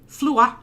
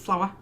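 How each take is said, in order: First: The vowel is flattened, sounding like flua. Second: The vowel is full, as in standard flower. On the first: "flattening vowels" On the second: "instead of flower"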